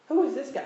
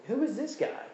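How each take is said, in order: First: High, louder scoffing repeat; hammed-up outrage, high and a bit louder; louder mock indignation. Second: High, scoffing incredulous question; lightly hammed-up disbelief, pitched high; mock indignation. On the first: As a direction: push the sneer harder the second time. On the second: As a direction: imitate your own sneer at a critic. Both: Mocking his own indignant thoughts.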